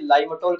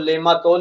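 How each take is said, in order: First: The name is said as two syllables, Laim-tol. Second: The name is said as three syllables, Le-maa-tol. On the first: This is the English pronunciation. "English में इसे लाइमटोल कहते हैं" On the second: This is the Hindi pronunciation. "Hindi में अगर इसका उच्चारण करेंगे तो लेमातोल"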